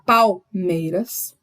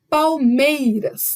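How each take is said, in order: First: The stress is not on the middle syllable. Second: The stress is on the middle syllable. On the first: The speaker calls it wrong. "eu não vou falar Palmeiras" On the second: The speaker calls it right. "minha última sílaba forte é o mei"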